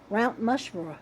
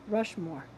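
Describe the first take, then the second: First: "Mount Mushmore" said with M for the R of "Rushmore"; tongue slip. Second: Said in the usual way. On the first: Retold or imitated. Laughing about her slip on Mount Rushmore, saying "Mount Mushmore". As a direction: retell the slip "Mount Mushmore" lightly, as a goof. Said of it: "I ke-, kept saying". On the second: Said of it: "I tried to say Mount Rush-, Rushmore".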